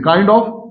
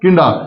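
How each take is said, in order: First: Both words are said separately and clearly. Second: The words blend into one word ending in uh. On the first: "ये देखिए काइंड ऑफ"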